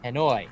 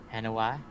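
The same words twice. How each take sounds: First: Hanoi said as ha-NOY, louder; correct Hanoi. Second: Hanoa said as ha-NO-ah; misread Hanoa. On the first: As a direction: Hanoi with a final oy sound. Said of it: "There it is". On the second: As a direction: Hanoa with a final ah sound. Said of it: "Hanoi. There it is". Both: Real, not acted.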